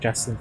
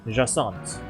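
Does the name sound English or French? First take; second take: English; French. First: The name is said like English 'Justin'. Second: The name is said with a French pronunciation. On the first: The speaker calls it wrong. "that's not how you pronounce the name" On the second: The speaker calls it right. "Jassant, that's the one"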